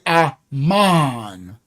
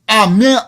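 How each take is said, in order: First: The last vowel sounds like 'ah'. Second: The last vowel sounds like 'eh'. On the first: The speaker calls it right. "I'll say Aman" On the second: The speaker calls it wrong. "I won't say"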